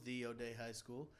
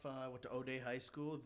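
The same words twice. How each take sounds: First: "the" said as "thee", stressed with a rise. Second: Said in the usual way. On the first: Shown as a demonstration. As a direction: lean on "the" as in "the one and only".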